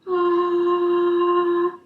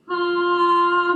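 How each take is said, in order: First: The vowel is breathy with air leaking through. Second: The vowel is clear with no air leaking. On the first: The speaker calls it wrong. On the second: The speaker calls it right.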